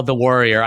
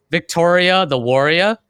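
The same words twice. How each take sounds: First: Said in the usual way. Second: Boston accent, warrior with r dropped, wor-ee-ah; Boston accent with a rising warrior. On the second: Shown as a demonstration. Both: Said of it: "like a Boston accent".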